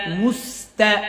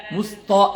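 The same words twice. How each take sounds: First: মুস্তা with a thin, open তা; measured মুস্তা, thin last vowel; correct light "ta". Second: মুস্তা with তা rounded to "to"; quicker wrong মুস্তা, sounding like "musto"; mistaken heavy "ta". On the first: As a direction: model মুস্তা carefully, keeping তা light. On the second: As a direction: show the fault: heavy, rounded end on মুস্তা. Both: Shown as a demonstration. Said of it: "এরকম জানা হয়".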